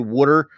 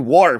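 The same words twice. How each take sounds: First: It is said with a Philadelphia accent. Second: It is said with a Southern accent.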